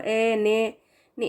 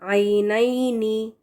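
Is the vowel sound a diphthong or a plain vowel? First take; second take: plain vowel; diphthong. First: The vowels are plain e sounds without glide. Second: The vowels glide fully into a y sound. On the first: The speaker calls it wrong. "ए ने नी इस तरह से नहीं पढ़ना" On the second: The speaker calls it right. "पूरा या के साथ आपने बिल्कुल उसको स्ट्रेस करके पढ़ना है"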